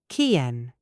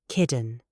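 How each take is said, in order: First: The T is a glottal stop. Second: The T sounds like a soft D. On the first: "British natural ... We use the glottal stop" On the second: "American ... They use the D sound"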